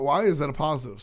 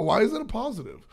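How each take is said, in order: First: Said in the usual way. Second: High, incredulous question. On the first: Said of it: "wh-, wh-, wh". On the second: Retold or imitated. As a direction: squeak it out in disbelief. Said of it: "I was just like".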